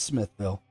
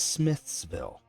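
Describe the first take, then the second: First: No s sound comes before 'ville'. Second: An s sound comes before 'ville'. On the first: The speaker calls it right. "No, it's Smithville" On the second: The speaker calls it wrong. "they add that S"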